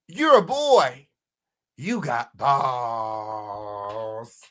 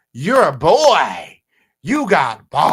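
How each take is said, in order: First: Mock diss, drawn out. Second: Slow, loud sneering diss; mock diss delivery. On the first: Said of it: "He said". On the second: Quoting the rapper's diss to chat, slow loud mockery. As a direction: drag it out loud and mocking. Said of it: "He goes on to say".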